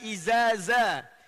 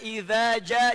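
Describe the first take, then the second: First: Both consonants are z sounds. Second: The consonants are dh and j.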